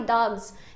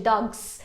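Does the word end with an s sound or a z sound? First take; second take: z; s. First: The word ends with a buzzing z sound. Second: The word ends with a hissing s sound. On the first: The speaker calls it right. "eu produzi um zan na primeira vez" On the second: The speaker calls it wrong. "um san na segunda"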